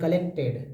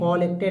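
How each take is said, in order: First: The first vowel is a short, weak 'uh' sound. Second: The first vowel is a full, open 'aw' sound. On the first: The speaker calls it right. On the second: The speaker calls it wrong.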